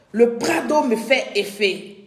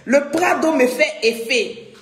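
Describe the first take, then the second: First: Said in the usual way. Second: Said through a laugh. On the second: Real, not acted. Host laughing to viewers about the effect Prado has on her. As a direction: let the laugh spill into the words. Laughing, then repeats it plainly.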